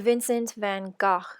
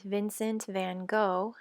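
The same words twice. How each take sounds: First: The name has a pronunciation closer to Dutch. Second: The name has an American English pronunciation. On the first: "which is closer to the pronunciation of his native Netherlands" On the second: "as we say here in the United States"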